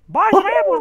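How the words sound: It is said in a high, squeaky cartoon voice.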